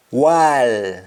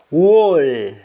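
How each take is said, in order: First: WALL as long open "waal"; Jamaican pronunciation. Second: WALL with rounded "woll" vowel; English-style round vowel in WALL; English pronunciation. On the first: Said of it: "we say al". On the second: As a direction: say WALL as "wawl". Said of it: "instead of saying all". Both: Shown as a demonstration.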